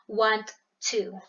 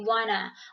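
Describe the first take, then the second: First: It is said in full as 'want to'. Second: It is reduced to 'wanna'. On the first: This is formal English. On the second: This is casual conversational slang.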